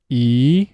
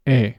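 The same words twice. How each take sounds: First: English "E" long, gliding; "E" the English way, drawn out; English vowel E. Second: Spanish "E" short and pure, like eh; "E" as a short clean Spanish eh; Spanish vowel E. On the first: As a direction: stretch the English "E". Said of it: "say the vowel in English". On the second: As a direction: clip the Spanish "E". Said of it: "followed immediately by Spanish". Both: Shown as a demonstration.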